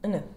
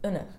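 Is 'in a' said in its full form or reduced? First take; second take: reduced; reduced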